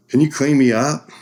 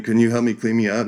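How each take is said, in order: First: High, loud plea for help; pleading ask. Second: Said in the usual way. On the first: Retold or imitated. Bloody cyclist asking a medic for help, loud plea. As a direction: beg the medic to clean you up. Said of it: "So I'm like". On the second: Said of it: "And he's saying".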